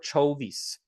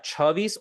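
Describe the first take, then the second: First: The first vowel sounds like 'oh'. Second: The first vowel sounds like 'ah'.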